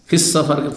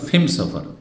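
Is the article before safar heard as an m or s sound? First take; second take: s sound; m sound. First: The article blends into safar as an s sound. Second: The article is said as an m sound. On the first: This is the common form of the phrase. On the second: This is how a regional tribe said the phrase.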